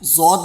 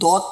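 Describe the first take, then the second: First: The name begins with a z sound. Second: The name begins with a d sound. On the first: The speaker calls it wrong. "जौद नहीं पढ़ना" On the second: The speaker calls it right. "इस लफ्ज़ को दौद पढ़ना है"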